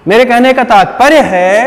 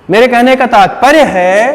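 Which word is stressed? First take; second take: तात्पर्य; तात्पर्य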